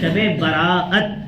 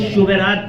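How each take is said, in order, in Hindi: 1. यह अलग-अलग बोला जाता है, 'bara'at' में रुकावट है। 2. यह एक साथ जुड़कर बोला जाता है, 'shu' से शुरू होता है। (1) "सही तलफ़ुज़ क्या है?" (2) "कुछ शुबेरात कहते हैं, ये सब गलत प्रोनाउंसिएशन है"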